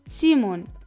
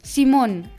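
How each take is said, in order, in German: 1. Der Name wird deutsch ausgesprochen. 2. Der Name wird spanisch ausgesprochen.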